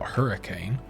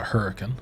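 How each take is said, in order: First: It is said the standard way, as spelled. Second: It is said in the local Appalachian way. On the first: "It's spelled hurricane" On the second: "but we call it hurricane"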